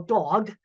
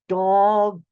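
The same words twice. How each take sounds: First: The word is said at normal speed. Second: The word is said slowly, each sound drawn out.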